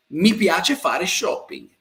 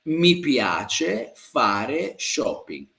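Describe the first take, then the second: First: Said in the usual way. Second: Very slow, word by word; slow model sentence. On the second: Shown as a demonstration. Teacher repeats a student's answer for learners, very slowly. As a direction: stretch out each word with pauses between.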